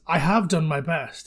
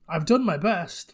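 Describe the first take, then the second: First: The word have is said in full. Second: The word have is contracted to I've. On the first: The speaker is arrogant and condescending. ""I have done my best," instead of "I've done my best."" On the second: The speaker is sincerely trying hard. "what I would read that as if I was reading the script"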